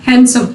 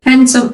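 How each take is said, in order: First: हैंडसम with silent d, "hansom"; हैंडसम said as han-sum, no d; हैंडसम with the d dropped; correct pronunciation. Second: हैंडसम said with the d sounded; हैंडसम with a d, the wrong way; हैंडसम with an audible d; wrong pronunciation. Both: Shown as a demonstration. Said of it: "हैंडसम सही word नहीं है".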